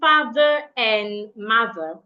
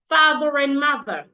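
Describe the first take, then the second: First: The R is not linked to the next word. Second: The R links into the next word. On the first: The speaker calls it wrong. "Instead of saying" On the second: The speaker calls it right. "I would say"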